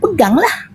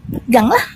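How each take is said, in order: First: Taunting dare. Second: Said in the usual way. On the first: Retold or imitated. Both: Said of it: "Dia kata gitu".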